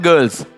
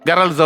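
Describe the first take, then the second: First: The vowel sounds like 'er' in 'girls'. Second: The vowel sounds like 'ar' in 'garls'. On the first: The speaker calls it right. "നല്ല pronunciation കഴിയുന്നതും correct ആയിരിക്കണം" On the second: The speaker calls it wrong. "പണ്ടത്തെയൊക്കെ പറയുന്ന പോലെ ഗേൾസിന് ഗറൾസ് എന്നും"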